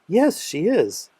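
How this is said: It sounds happy and bright.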